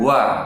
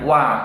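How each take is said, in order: First: The syllable is said with added breath. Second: The syllable is said cleanly without breath. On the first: The speaker calls it wrong. "bukan wa" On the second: The speaker calls it right. "dibaca dengan wa, tidak boleh dengan angin"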